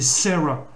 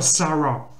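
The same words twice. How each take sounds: First: The name is said with English vowels and sounds. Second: The name is said with French vowels and sounds. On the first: The speaker calls it right. "c'est Sarah ... il faut prononcer serre" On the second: The speaker calls it wrong. "C'est pas Sarah, faut surtout pas le prononcer à la française"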